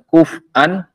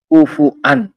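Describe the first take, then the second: First: The f has no vowel after it. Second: The f is followed by a u vowel. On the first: "Bisa fa-nya di sukun" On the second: "bisa fa-nya di dhammah"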